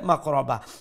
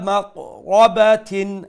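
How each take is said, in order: First: The word ends with an h sound. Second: The word ends with a tin sound. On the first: The reading stops on this word. "ستوب" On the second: The reading continues into the next word. "Continue করলে"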